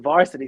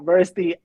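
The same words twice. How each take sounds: First: It is said in a New York accent. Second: It is said without a New York accent. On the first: This is how people from New York say it. The speaker calls it right. "they're not from New York. Like they don't get it the way I do" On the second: This is how outsiders say it. The speaker calls it wrong. "it's not varsity"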